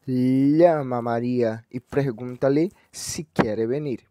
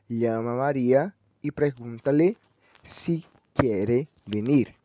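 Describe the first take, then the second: First: Llama read slowly with a falling accent; first example stress. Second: Llama a Maria with a rising pitch, venir drawn out slowly; second example stress. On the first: Teacher reading the first example to show accent placement. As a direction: spell out Llama a Maria carefully, stress shown. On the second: Teacher reading the second example to contrast accent placement. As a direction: stretch venir and let it rise. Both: Shown as a demonstration. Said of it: "o que difere a acentuação".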